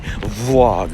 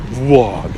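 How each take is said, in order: First: The word begins with a plain v sound. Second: The word begins with a w-like glide.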